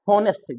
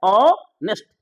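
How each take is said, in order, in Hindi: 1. यह शब्द h की ध्वनि से शुरू होता है। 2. यह शब्द स्वर की ध्वनि से शुरू होता है। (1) "एच हम लोग पढ़ देते हैं हॉनेस्ट।" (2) "जबकि होता है ऑनेस्ट।"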